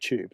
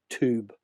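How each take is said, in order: First: The word is pronounced in a non-American way. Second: The word is pronounced the American way. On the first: "they wouldn't say tube" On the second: "as Americans would say"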